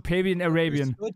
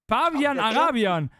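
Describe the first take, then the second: First: The name is pronounced in a non-German way. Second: The name is pronounced in the German way. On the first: "Das ist so Pavian Arabian" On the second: "Die deutsche"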